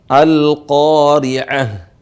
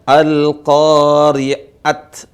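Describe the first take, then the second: First: The word ends with an h sound. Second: The word ends with a t sound. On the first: The speaker calls it right. "Dibaca apa? Al-qari'ah" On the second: The speaker calls it wrong. "Dibaca al-qari'at, bukan"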